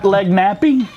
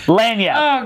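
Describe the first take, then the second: First: It is said like 'leg nappy', ending in 'ee'. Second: It is said 'lan-yap', ending in 'yap'. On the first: The speaker calls it wrong. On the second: The speaker calls it right.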